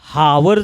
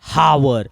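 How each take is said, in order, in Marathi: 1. hour शब्द 'h' आवाजाने सुरू होतो. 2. hour शब्द 'h' आवाजाने सुरू होतो.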